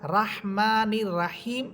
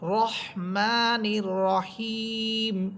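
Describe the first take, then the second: First: The r is pronounced light and thin. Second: The r is pronounced heavy and thick. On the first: The speaker calls it wrong. "রাহমানির রাহিম এটা ভুল উচ্চারণ" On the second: The speaker calls it right. "এখানে র হরফটা মোটা হবে"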